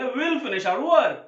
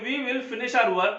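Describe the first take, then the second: First: "we will" merged into one syllable, we'll; stylish contraction. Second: Said in the usual way. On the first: Shown as a demonstration. Teacher gives the short version to learners, "we will" contracted. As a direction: run "we will" together as we'll. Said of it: "तो हम बोलेंगे". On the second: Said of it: "अगर हमें बोलना है".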